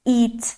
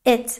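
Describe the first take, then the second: First: The vowel is long, like 'ee'. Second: The vowel is short, like in 'sit'. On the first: The speaker calls it wrong. "ما این رو به صورت ای کشیده تلفظ نمی کنیم" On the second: The speaker calls it right. "یه ای کوتاهه"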